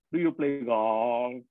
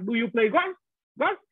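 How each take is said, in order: First: "golf" in a low falling huyền tone, said slowly; "Do you play golf?" low and slow, Thai accent, "golf" falling; Thai-style English. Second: "golf" said with a rising sắc tone, pitch going up at the end; "Do you play golf?" in Vietnamese English, "golf" rising sharply; Vietnamese-style English. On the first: Teacher imitating how Thai speakers say "golf", low falling huyền tone. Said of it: "người ta gọi thế là dấu huyền". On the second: Teacher showing how Vietnamese speakers say "golf", rising sắc tone. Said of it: "mình lên, lên dấu sắc". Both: Shown as a demonstration.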